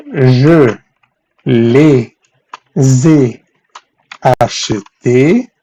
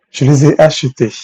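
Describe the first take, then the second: First: "Je... les ai... acheté", long drawn-out chunks; slow, piece by piece. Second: Said in the usual way. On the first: Shown as a demonstration. Teacher building the French answer for students, very slowly. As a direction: dictate each piece separately, stretching it.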